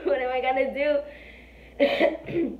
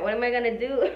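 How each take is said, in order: First: Slow, drawn out and laughing through it. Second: Said in the usual way. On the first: Retold or imitated. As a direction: laugh at your own panic while asking. Repeats the panicked thought, laughing.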